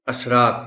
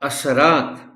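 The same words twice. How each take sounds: First: The s runs straight into the r. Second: A short 'a' vowel follows the s sound. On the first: The speaker calls it wrong. "असरात नहीं कहना" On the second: The speaker calls it right. "यहां से पर जबर है"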